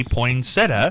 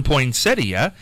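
First: Poinsettia said as poin-SET-uh; popular pronunciation. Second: Poinsettia slowly as poin-SET-ee-uh; less common pronunciation. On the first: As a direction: end poinsettia on plain -uh, without the i. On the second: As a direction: sound the i before the a in poinsettia. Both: Shown as a demonstration. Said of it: "more people come in and say".

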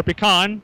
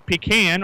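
First: "pecan" ending like "con"; pecan as pih-KAHN. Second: "pecan" with a long E and the A of "can"; pecan as PEE-can. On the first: Host offering the other town's version, "pecan" as pih-KAHN. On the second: Host reading the pie list, "pecan" as PEE-can. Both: Shown as a demonstration. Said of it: "depending on which side of town you live on".

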